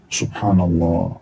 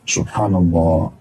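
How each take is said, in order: No difference in how they are said.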